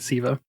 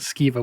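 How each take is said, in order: First: The name begins with a plain 's' sound. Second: The name begins with an 'sk' sound. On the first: The speaker calls it right. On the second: The speaker calls it wrong. "my entire life I've always pronounced it Skiva, which is wrong"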